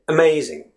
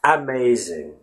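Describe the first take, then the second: First: "amazing" opening on a barely voiced uh; natural "amazing", unstressed uh at the start; schwa. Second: Slow "amazing" with an open-mouthed A up front; "amazing" with the first A fully sounded; full open first A. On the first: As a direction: reduce the first A of "amazing" to a quick schwa. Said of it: "You just say amazing". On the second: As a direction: give the unstressed A of "amazing" its full vowel. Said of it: "You don't really say amazing". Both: Shown as a demonstration.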